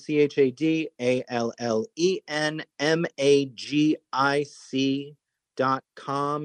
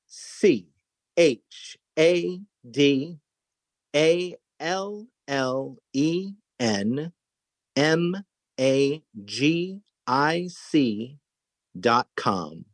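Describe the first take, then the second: First: It is spelled out fast. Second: It is spelled out slowly.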